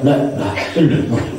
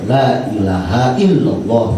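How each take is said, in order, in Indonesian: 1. Suku kata di tengah dihilangkan dan dipotong pendek. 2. Setiap suku kata dalam frasa itu diucapkan dengan jelas. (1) "bukan la la illallah" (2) "la ilaha illallah begitu"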